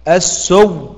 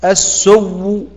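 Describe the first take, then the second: First: The final sound ends in full silence. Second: The final sound ends with a faint, partial vowel. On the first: "إبدال بإدغام على السكون المحض" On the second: "إبدال بإدغام مع الروم"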